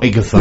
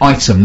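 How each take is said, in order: First: It sounds like 'Ig-a-thum', three syllables. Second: It sounds like the word 'item', two syllables. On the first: The speaker calls it wrong. "not Igathum" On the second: The speaker calls it right. "The place is called Item"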